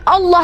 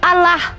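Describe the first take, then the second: First: The L is said heavy and thick. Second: The L is said light and thin. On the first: This is the reading the speaker holds to be proper. The speaker calls it right. "Lafaz alim lam jalalahnya harus ditafkim" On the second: This is the reading the other side uses. The speaker calls it wrong. "Mereka berkelit kemudian bahwa bacaannya bukan Allah tapi Allah"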